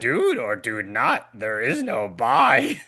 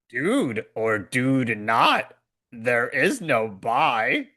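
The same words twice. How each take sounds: First: The line is spoken at a fast pace. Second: The line is spoken at a slow pace. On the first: "I'll do it faster" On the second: "I just said it slower so you can hear the word dude"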